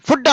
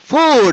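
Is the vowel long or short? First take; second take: short; long. First: The vowel is a short u sound. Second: The vowel is a long oo sound. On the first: The speaker calls it wrong. "ఫుడ్ అనకూడదు" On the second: The speaker calls it right. "ఫుడ్ అనాలి"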